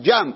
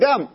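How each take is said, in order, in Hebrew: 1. המילה מתחילה בצליל j רך. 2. המילה מתחילה בצליל g קשה. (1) "אני לא יכול לבטא את, נכון, ג'ם" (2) "אני אומר גם"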